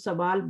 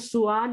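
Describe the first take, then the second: First: The word begins with sa, then a w sound. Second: The word begins with su, then a separate al. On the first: This is the everyday Urdu form. "लेकिन हम सवाल बोलते हैं" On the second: This is the original Arabic form. "हमें सुआल ही बोलना चाहिए उर्दू में भी"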